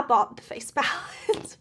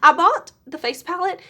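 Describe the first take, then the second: First: Giggling through it; laughing. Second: Louder, higher excited repeat. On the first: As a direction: laugh mid-line. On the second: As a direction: blurt it out with glee. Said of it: "and I bought the face palette". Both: Real, not acted.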